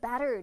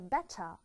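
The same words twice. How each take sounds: First: The T is soft, as in American English. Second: The T is strong and clear, Australian style.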